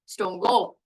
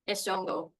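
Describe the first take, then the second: First: The vowel has the added tone movement. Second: The vowel has no added tone movement. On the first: The speaker calls it right. "Two is the one that will have the tone added" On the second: The speaker calls it wrong. "column one is wrong"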